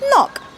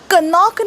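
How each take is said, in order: First: The word begins with an n sound. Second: The word begins with a k sound. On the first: The speaker calls it right. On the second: The speaker calls it wrong.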